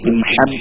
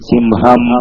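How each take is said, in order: First: The h sound is harsh and strong. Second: The h sound is soft and light. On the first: The speaker calls it wrong. "അത് സിംഹം എന്ന് പറയില്ലല്ലോ" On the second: The speaker calls it right. "സിംഹം എന്നാണ് പറയാ"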